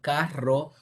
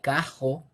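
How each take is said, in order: First: The r is trilled at the front of the mouth. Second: The r is made at the back of the mouth. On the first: "instead of carro" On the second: "it would be something like cajo"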